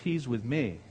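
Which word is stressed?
me. The stress falls on the word 'me'. The speaker is vouching for a friend he brought along. The speaker calls it wrong. "it's not okay because he's with me"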